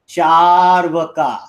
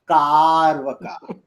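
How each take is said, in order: First: The word begins with a 'ch' sound. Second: The word begins with a 'k' sound. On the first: The speaker calls it right. "It's called Charvaka" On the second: The speaker calls it wrong. "not Karvaka"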